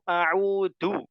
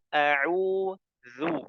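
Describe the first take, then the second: First: The middle consonant is a plain d sound. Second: The middle consonant is a light th sound. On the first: The speaker calls it wrong. "Jadi zalnya jadi dal" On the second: The speaker calls it right. "yang betul a'udzu"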